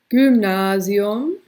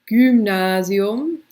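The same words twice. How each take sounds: No difference in how they are said.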